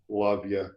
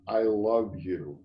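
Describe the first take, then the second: First: It is said as a quick, casual throwaway. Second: It is said slowly and with full sincerity.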